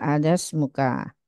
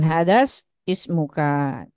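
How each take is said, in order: First: The i sound is dropped, linking the words. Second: The i sound is pronounced before smuka. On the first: The speaker calls it right. "Berarti hadas muhu, hadas muha, hadas muka" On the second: The speaker calls it wrong. "Jangan hadas ismuka"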